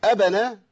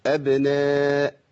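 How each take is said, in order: First: أبنا with the b opened into a vowel; overdone qalqala. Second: أبناء with an audible bounce on the b; drawn-out أبناء, echo the b; qalqala on ba. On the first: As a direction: push a vowel after the b in أبنا. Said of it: "كده زدت وفتحت الباء". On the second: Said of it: "القلقلة لازم يبان صوتها". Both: Shown as a demonstration.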